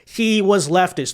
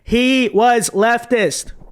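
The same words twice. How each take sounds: First: It is said firmly but without screaming. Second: It is screamed very loudly.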